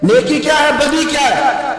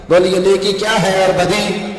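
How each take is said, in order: First: Preached question. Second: Said in the usual way. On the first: Shown as a demonstration. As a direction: hammer each word at the crowd. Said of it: "repeats the question preaching".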